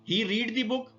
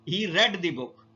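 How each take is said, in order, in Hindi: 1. शब्द read में लंबा ee स्वर है। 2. शब्द read में छोटा e स्वर है। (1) "ही रीड the book first form of verb के साथ प्रेजेंट इंडेफिनिट को जाहिर करेगा" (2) "इसकी सेकंड फॉर्म को हम प्रोनाउंस करते हैं रेड के तौर पे"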